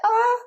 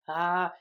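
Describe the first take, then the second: First: The sound is high in pitch. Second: The sound is low in pitch. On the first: The body is gripping and tense. The speaker calls it wrong. "you're using higher tones like" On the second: The body is relaxed. The speaker calls it right. "when you relax here with low tones"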